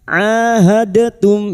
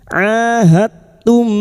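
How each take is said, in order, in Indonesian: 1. Bunyi d dilepaskan dengan tambahan vokal. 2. Bunyi d langsung menyatu ke dalam t. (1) "jangan dibaca ahadatum ya" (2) "Sifat qalqalah dari huruf dal ini hilang masuk pada huruf ta"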